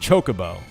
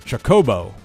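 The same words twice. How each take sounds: First: The stress is not on the second syllable. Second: The stress is on the second syllable. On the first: "not Chocobo" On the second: "you did put the accent on the second syllable"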